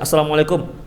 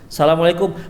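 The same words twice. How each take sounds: First: It is said in a plain, ordinary voice. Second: It is said in a sweet, lilting voice.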